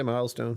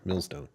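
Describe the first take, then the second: First: "milestone" with a long "eye" vowel; mispronounced Millstone. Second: "Millstone" with a short i, like "mill"; corrected pronunciation. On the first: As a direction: say "milestone", rhyming the first syllable with "mile". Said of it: "Did I say milestone". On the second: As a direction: say "Millstone", first syllable rhyming with "hill". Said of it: "I'm sorry". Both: Shown as a demonstration.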